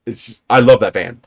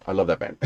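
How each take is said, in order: First: Said in the usual way. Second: Soft fond repeat. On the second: Real, not acted. Man repeating his love for his old van, soft and wistful. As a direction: lower and softer, almost to himself.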